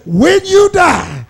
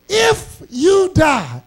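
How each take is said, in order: First: When you die, slower and higher; imitating what the salesman never says; stress on you. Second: If stressed high and slow; drawn-out, higher If, imitating a salesman; salesman's iffy pitch. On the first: Preacher contrasting the salesman's wording, you stressed. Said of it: "He never says". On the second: Preacher mimicking an insurance salesman, stress on If. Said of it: "what the insurance salesman always says".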